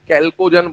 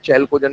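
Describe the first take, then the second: First: The word begins with a hard k sound. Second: The word begins with a ch sound. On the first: The speaker calls it right. "H silent है यहाँ पर" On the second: The speaker calls it wrong. "चैल्कोजन नहीं बोलते हैं"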